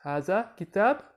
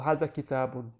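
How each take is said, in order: First: "kitab" ending on a clean b, without -un; ending vowel dropped. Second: "kitabun" with the -un ending sounded; full ending pronounced. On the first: Teacher shows learners the spoken short form, ending vowel dropped. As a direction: say "kitab" with the -un ending left off, pitch raised. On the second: Teacher shows learners the formal alternative, full ending pronounced. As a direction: finish the word fully as "ki-ta-bun". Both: Shown as a demonstration. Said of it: "you don't need to pronounce the ending vowels".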